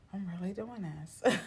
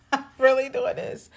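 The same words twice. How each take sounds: First: Quiet disbelief. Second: Higher and louder, half laughing; squealed disbelief; giddy disbelief. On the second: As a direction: say it again, thrilled at yourself. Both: Retold or imitated.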